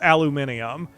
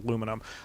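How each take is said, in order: First: The word is said the British way. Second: The word is said the American way. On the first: The speaker calls it right. "that specific Britishism" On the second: The speaker calls it wrong. "I'm actually pronouncing it wrong"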